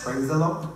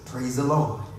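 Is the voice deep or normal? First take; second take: normal; deep. First: It is said in a normal voice. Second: It is said in a deep voice.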